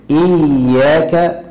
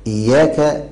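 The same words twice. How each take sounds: First: إياك with a long, pressed double ي; slow إياك, holding "iyy-" before "yaaka"; ya with shadda. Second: إياك with a light single ي, "iyaaka"; quick, lightened ي in إياك; ya without shadda. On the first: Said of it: "هنا القارئ يعتني بالتشديد". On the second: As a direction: let the ي of إياك go by undoubled. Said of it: "لو لم يشدد القارئ". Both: Shown as a demonstration.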